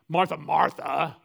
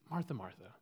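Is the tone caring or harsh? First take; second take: harsh; caring. First: It is said in a harsh, exasperated tone. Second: It is said in a gentle, caring tone.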